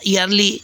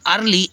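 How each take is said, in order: First: The first vowel is sounded like 'ee'. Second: The first vowel is sounded like 'er'. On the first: The speaker calls it wrong. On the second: The speaker calls it right.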